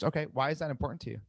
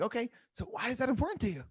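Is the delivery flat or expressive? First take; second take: flat; expressive. First: It is said flatly, without tonal variation. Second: It is said with varied, expressive tonality.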